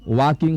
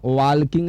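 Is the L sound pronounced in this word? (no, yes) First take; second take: no; yes. First: The L sound is silent before the k. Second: The L sound is pronounced before the k. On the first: The speaker calls it right. "वॉकिंग होता है" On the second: The speaker calls it wrong. "इसका उच्चारण वॉल्किंग नहीं होता है"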